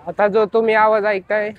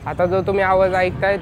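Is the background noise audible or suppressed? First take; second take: suppressed; audible. First: Background noise is removed behind the voice. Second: Background noise is heard behind the voice. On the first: "noise कॅन्सलिंगने ऐकताय" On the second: "without noise cancelling ऐकताय"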